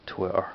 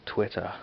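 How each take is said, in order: First: Said in the usual way. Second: "Twitter" in a put-on English accent, ending "-ah"; attempted English accent. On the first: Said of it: "That's how I always say Twitter". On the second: Shown as a demonstration. Dubliner imitating how they say it in England, English accent. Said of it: "how they say in, in English".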